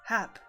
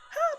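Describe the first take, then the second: First: It sounds fairly calm. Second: It sounds urgent and distressed.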